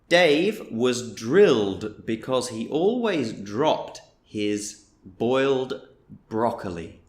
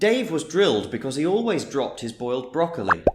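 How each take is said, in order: First: The sentence is spoken slowly and carefully. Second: The sentence is spoken quickly at full speed. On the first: "I will say the sentence slowly" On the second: "I'll say it at full speed"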